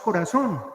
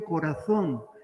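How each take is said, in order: First: The z is said the Latin American way. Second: The z is said the way Spaniards say it. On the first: "Nosotros mm, la pronunciamos corazón" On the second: "los españoles pronuncian muy bien corazón, la Z"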